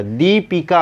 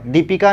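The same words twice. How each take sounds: First: दीपिका slowly with a held "dee"; long first ī. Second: दीपिका with a quick short first i. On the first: Teacher correcting it for students, long-ī दीपिका. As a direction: stretch the दी of दीपिका. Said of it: "दीपिका होता है". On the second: Teacher showing students the misspelling, short-i दीपिका. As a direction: keep the दी of दीपिका brief. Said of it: "दीपिका नहीं होता". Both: Shown as a demonstration.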